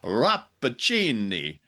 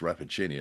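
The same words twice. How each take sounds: First: The name is said with exaggerated stage-Italian flair. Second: The name is said plainly, without exaggerated Italian flair. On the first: "like a T V commercial for pasta sauce" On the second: "isn't pronounced"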